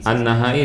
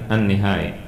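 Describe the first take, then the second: First: The syllable after an- is said as na. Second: The syllable after an- is said as ni. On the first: The speaker calls it wrong. "an-nahai diganti nihai" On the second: The speaker calls it right. "diganti nihai"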